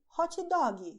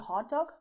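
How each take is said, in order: First: It is said with a Brazilian Portuguese pronunciation. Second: It is said with an English pronunciation. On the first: "Brazilians say hot dog instead" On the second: "you can say hot dog, people will understand you"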